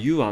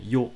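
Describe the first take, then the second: First: The word sounds like two syllables, yoo-ah. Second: The word sounds like one syllable, yo. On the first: The speaker calls it wrong. "ユアって言っちゃう人が結構いるんですね" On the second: The speaker calls it right. "そうじゃないですね。ヨですね"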